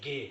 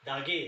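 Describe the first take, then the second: First: The first syllable da is left silent. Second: The first syllable da is fully pronounced. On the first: The speaker calls it right. "दा को silent करना है" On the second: The speaker calls it wrong. "यहाँ दागे ऐसा नहीं करना है"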